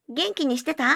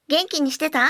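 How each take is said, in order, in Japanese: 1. 声は後ろから、中くらいの距離で聞こえる。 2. 声は前から、中くらいの距離で聞こえる。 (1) "背面、中央マイクから約50 センチ離れた距離から。" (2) "ク正面中央約50 センチ離れた距離から。"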